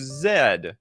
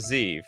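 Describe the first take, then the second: First: The letter is said the British way, zed. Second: The letter is said the American way, zee.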